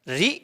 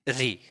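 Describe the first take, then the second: First: The vowel is held for a short time. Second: The vowel is held for a long time. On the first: "ये लघु री है इसलिए कम समय" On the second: "ये दीर्घ री है इसलिए इसमें ज्यादा समय लगेगा"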